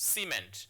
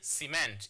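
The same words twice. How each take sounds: First: The stress is on the first syllable. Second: The stress is on the second syllable. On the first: The speaker calls it right. "it's cement" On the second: The speaker calls it wrong. "You don't say cement"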